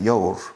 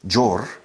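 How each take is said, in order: First: It is said with a Spanish accent. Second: It is said with a Spanish accent.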